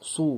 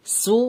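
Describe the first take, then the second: First: সু with rounded lips and a heavy, thick s; heavy sad su. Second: সু as a light, thin s; the light সিন সু; sin su. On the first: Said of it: "মুখটা গোল করে, হালকা মোটা করে". (মুখ গোল করে মোটা সু) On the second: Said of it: "এটা দেখুন". (হালকা সিন পেশ সু) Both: Shown as a demonstration.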